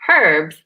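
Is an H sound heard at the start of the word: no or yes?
yes. The word begins with an audible H sound.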